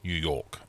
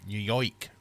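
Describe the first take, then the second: First: Second stab at New York accent, falling; New York accent attempt. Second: New York with a twisted "oi" vowel; New York accent attempt. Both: Shown as a demonstration. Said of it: "Can't do a New York accent".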